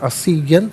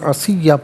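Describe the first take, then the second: First: The word ends with an n sound. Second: The word ends with a long vowel. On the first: The reading continues without stopping. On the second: The reader stops here.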